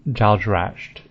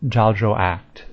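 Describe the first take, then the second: First: Slow "Jaldrasht", last syllable "rasht"; speaker's own reading. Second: Jaldracht ending in a hard "act"; "Jaldracht" with a k before the final t; official pronunciation. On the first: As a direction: end Jaldrasht in a hushing "-asht". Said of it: "So I'd call it". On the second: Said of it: "how do they pronounce it". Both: Shown as a demonstration.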